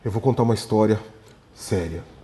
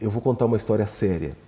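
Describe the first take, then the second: First: It follows a pause and sounds more measured. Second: It is said lightly, in a joking tone. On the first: The story seems a little more serious. "eu parei um segundo e falei" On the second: The story does not seem serious. "Eu posso falar assim, brincando"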